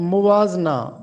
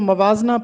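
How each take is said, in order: First: The first vowel is 'u'. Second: The first vowel is 'a'. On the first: The speaker calls it right. "जबकि दुरुस्त लफ्ज़ है मुवाजना" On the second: The speaker calls it wrong. "अक्सर लोग इसको मवाजना पढ़ते हैं मीम पर ज़बर के साथ"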